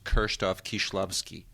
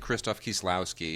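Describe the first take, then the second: First: The name is pronounced with native Polish sounds. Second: The name is pronounced with English sounds. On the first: This is how the name is properly said. The speaker calls it right. "It should be pronounced" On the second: This is how English speakers usually say it. The speaker calls it wrong. "we say"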